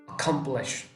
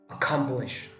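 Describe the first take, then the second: No difference in how they are said.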